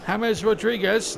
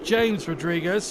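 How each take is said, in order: First: The first name is given a Spanish pronunciation. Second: The first name is given an English pronunciation. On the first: The speaker calls it right. "he prefers his uh, first name if it pronounced James Rodriguez" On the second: The speaker calls it wrong. "not James Rodriguez"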